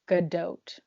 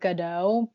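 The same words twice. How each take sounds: First: The final T is clearly sounded. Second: The final T is silent. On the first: This is how the name is actually said. The speaker calls it right. "the T is not silent for once" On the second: This is how the speaker assumed it was said. The speaker calls it wrong. "I thought you say her name"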